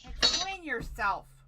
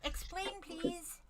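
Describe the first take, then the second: First: It is said in a demanding tone. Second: It is said in a polite tone.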